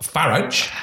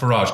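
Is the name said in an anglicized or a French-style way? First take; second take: anglicized; French-style. First: The name is said the plain English way. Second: The name is said the continental, French-like way. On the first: The speaker calls it wrong. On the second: The speaker calls it right.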